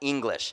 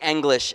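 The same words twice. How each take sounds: First: The word is pronounced the common way, unlike spelling. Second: The word is pronounced the way it is spelled. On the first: The speaker calls it wrong. "and not English" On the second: The speaker calls it right. "I say it how it's spelled"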